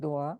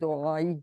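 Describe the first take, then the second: First: The word ends without the final vowel. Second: The word ends with a short 'ee' vowel. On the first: It is the form used when stopping at the end. "और जब हम रुकते हैं तो हम दुआ कहते हैं" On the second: It means 'my prayer', read without stopping. "ये जो जेर लगा हुआ ना, ये समझिए ये की छोटी ये की जगह है"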